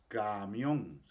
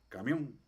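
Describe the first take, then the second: First: The first 'a' vowel is drawn out long. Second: The first 'a' vowel is very short. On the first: The speaker calls it wrong. "Nosotros no decimos camión" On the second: The speaker calls it right. "sino que decimos camión. Entonces la A es una A bastante corta"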